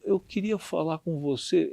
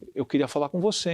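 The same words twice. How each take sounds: First: It is said hesitantly, in a timid, fragile manner. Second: It is said firmly, in a confident, assertive manner. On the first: The speaker feels vulnerable and unsure. "como colocando numa posição frágil, é, né, vulnerável" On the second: The speaker is confronting the listener. "É muito diferente"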